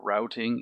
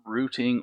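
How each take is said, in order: First: It is said with an American pronunciation. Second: It is said with a non-American pronunciation.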